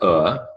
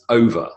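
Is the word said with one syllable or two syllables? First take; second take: one; two. First: The middle sound is dropped, giving one syllable. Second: The word is said in full with two syllables. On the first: "he used elision" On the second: "it's over"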